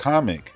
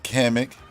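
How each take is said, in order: First: The name sounds exactly like the word comic. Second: The name does not sound like the word comic. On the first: This is how the trailer narrator said the name. "He said comic, like comic book" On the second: This is how the name is usually said. "not Kamek"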